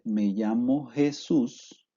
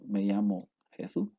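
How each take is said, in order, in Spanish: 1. Las s son sibilantes normales. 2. La s del medio es interdental y la s final se omite. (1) "si una persona dice" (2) "anulamos las consonantes finales y si interdentalizamos la Z"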